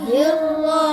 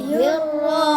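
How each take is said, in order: Both takes have the same delivery.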